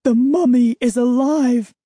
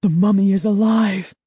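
First: High, loud terrified shout; panicked cry. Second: Terrified. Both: Acted. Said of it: "The horrifying thought swept through".

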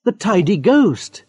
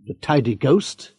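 First: Higher, slow, knowing emphasis; amused confirmation. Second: Slow, worried rising question; puzzled question. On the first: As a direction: confirm it with relish. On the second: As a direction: echo it back in confusion. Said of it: "Mister Webb looked worried". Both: Acted.

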